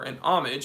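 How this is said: Homage is said the American English way.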